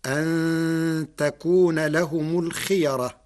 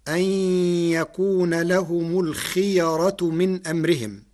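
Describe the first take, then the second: First: تكون said with the feminine ta, takun; Warsh reading. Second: يكون said with ya, yakun; reading with ya. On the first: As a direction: say تكون with a ta at the start. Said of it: "بتاء التأنيث". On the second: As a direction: recite يكون with a ya at the start. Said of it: "قرأ ورش كلمة يكون". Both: Shown as a demonstration.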